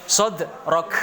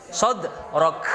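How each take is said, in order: No difference in how they are said.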